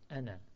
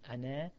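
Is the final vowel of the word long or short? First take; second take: short; long. First: The final vowel is cut short. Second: The final vowel is held long. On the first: The speaker calls it right. "as just a short ana and not ana" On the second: The speaker calls it wrong. "you would think it's pronounced as ana with a long alif at the end"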